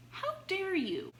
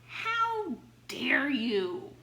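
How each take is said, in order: First: High-pitched imitating "How dare you?"; mock outrage. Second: Slow, louder "How dare you?" stretched out; drawn-out mock outrage. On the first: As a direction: squeal it as the offended public. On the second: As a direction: drag it out in hammed-up indignation. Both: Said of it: "the press are outraged".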